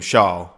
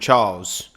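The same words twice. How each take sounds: First: The name is said with a foreign-sounding pronunciation. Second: The name is said with a plain English pronunciation. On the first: Commentators say it this way to sound exotic. The speaker calls it wrong. "all of the commentators calling him Charles" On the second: This is how the man says his own name. The speaker calls it right. "he pronounces his name Charles"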